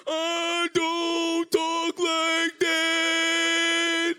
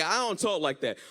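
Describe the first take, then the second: First: Very high, loud, endlessly stretched words; grotesquely slow, high-pitched mockery of a boyfriend; mocking his voice. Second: Said in the usual way. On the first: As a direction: drag it out in a shrieking mimic. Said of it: "You got me sounding like Lil Peter from Us".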